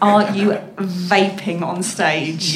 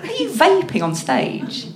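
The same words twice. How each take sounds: First: The question is spoken with careful, clear enunciation. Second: The question is spoken in a casual way.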